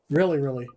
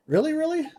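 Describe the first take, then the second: First: "Really, really." falling and settled, a bit louder; firm confirmation. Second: Really, really? rising high and loud, excited disbelief; eager question. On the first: Oliver confirms P's question. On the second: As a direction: ask "Really, really?" with a big upward leap. P asks, Oliver confirms. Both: Acted.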